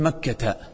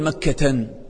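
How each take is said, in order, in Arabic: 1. الكلمة تنتهي بدون صوت n مضاف. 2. الكلمة تنتهي بصوت n مضاف. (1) "نقول مكة" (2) "ما نقول مكة"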